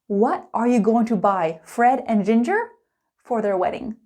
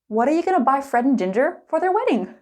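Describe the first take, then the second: First: It is said slowly with every word clear. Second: It is said quickly with the words run together. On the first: "Slow and clear" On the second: "Let's speed it up"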